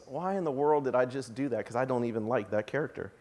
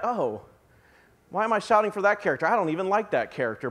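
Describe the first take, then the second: First: Much softer and lower, fast embarrassed aside; hushed, sheepish self-talk; quiet realization. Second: Fast, puzzled muttering to yourself; quick self-questioning aside; puzzled inner thought. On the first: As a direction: drop it low like a private realization. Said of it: "only to realize". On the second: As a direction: rush through it, suddenly confused. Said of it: "you're like". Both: Retold or imitated.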